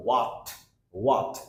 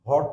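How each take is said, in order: First: "what" opened with a rounded w, like waat; corrected sound. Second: "What" opened with an h, like hort; mistaken sound. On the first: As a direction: start "what" on a clear w, open vowel. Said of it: "what এর উচ্চারণ হবে ডাব্লিউএইচ এর". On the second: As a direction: say "What" as hot, without the w. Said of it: "What তো কোনোভাবেই হবে না". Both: Shown as a demonstration.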